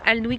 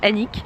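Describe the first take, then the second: First: The L and W sounds are pronounced. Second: The L and W sounds are left out. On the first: The speaker calls it wrong. "j'ai prononcé ça Alnwick tout à l'heure" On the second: The speaker calls it right. "ça se dit juste Annick"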